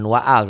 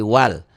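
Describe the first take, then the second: First: The alif vowel is pronounced as a separate syllable. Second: The alif is silent and the sounds link. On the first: The speaker calls it wrong. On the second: The speaker calls it right.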